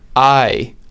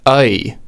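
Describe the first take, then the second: First: The diphthong sounds like the word 'eye'. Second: The diphthong sounds like the vowel in 'oy vey'. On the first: This is the vowel of rider. "In the word rider, the diphthong is I" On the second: This is the vowel of writer. "In the word writer, the diphthong is I"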